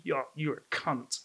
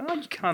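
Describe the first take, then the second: First: "cunt" slow and low-key with a hard final T; stress on the T. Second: "cunt" with a soft T, higher pitch; stress off the T. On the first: Tom showing the insulting way, "cunt" with crisp T. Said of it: "If you emphasize the T". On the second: Tom showing the harmless way, light "cunt" without stressed T. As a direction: lift "Oh, you cunt" lightly, no hard T. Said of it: "if you emphasize anywhere else, it's not". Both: Shown as a demonstration.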